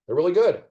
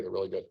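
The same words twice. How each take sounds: First: Higher and louder, bursting out; excited praise. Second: Said in the usual way. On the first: Real, not acted. Solver gushing to the stream about the clues, excited. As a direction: blurt out the praise with delight. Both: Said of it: "Can I say it?".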